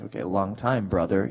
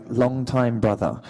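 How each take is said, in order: First: Put-on American accent. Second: Slow, careful attempt at an English accent. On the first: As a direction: lower American accent, at the back of the throat. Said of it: "speaking with an American accent". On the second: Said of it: "help me with an English accent".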